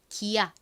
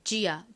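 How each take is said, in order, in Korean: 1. 이름은 g 소리로 시작합니다. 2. 이름은 j 소리로 시작합니다. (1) "기아 이렇게 읽는 것이 아니라" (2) "지읒 소리도 나잖아요"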